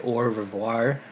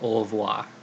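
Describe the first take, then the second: First: It is said with an American accent. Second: It is said with a French accent. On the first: The speaker calls it wrong. "don't say" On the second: The speaker calls it right. "like the French pronounce it"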